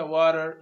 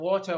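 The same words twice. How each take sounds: First: American "water" with tapped t and r; American accent. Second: British "water" with a clear t; British accent. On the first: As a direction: say "water" American style, r-coloured ending. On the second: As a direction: say "water" British style, dropping the final r. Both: Shown as a demonstration. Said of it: "لما نختلف عندي نفس الكلمة وتغير الصوت".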